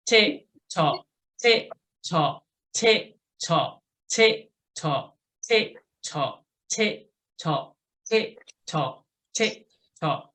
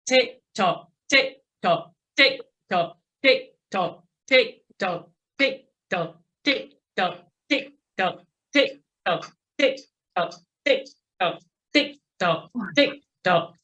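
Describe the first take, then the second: First: Metronome tick-tock with even gaps; steady ninety count. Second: Tighter, quicker metronome tick-tock; quick hundred-ten count. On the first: Coach marks each knee at the top, steady ninety count. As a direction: call an unhurried, regular pedalling beat. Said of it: "going for ninety for a minute". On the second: Coach pushes riders up to a hundred and ten, quick count. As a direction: drive an even, quick pedalling beat. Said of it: "go up to a hundred and ten". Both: Shown as a demonstration.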